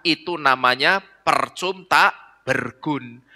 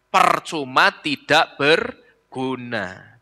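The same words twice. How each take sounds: First: Percum tak bergun with the final a dropped, slow; clipped words. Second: Said in the usual way. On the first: Shown as a demonstration. Sengaja dipenggal lalu diulang. (kata dipotong lambat)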